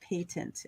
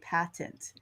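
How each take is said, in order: First: It is said with the non-American pronunciation. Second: It is said with the American pronunciation. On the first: "But I know that patent is also said" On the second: "as I learned that word as an American from the Americans, I'd say patent"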